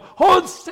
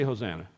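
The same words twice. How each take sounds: First: It is shouted very loudly. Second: It is said softly and plainly.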